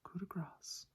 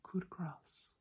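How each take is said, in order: The two takes are said the same way.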